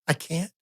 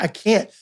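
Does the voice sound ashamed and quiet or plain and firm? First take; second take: ashamed and quiet; plain and firm. First: It is said quietly, sounding broken and ashamed. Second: It is said in a plain, steady voice. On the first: "It was more of a quiet, broken, ashamed" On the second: "my tone wasn't like it is now"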